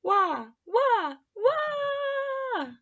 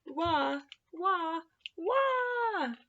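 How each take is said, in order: First: Rising wailing cry, much higher and louder. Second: Soft sing-song wah, higher; mock wail. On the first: Tree wails louder at Albert, a rising crying wail. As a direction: wail it out, climbing higher each wah. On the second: Tree keeps wailing, a soft mock cry. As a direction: pretend baby wail, kept gentle. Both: A narrator's reading. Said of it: "wailed just even louder".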